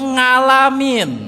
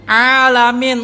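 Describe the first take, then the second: First: It begins with a nasal ng sound. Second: It begins with a deep throat consonant. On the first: The speaker calls it wrong. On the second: The speaker calls it right.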